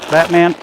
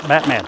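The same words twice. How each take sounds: First: "Batman" called out louder, pitch up a little. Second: Said in the usual way. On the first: Real, not acted. Farmer calling the pig again, louder. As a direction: raise your voice to call the pig. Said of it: "second call of Batman". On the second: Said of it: "Batman repeated louder".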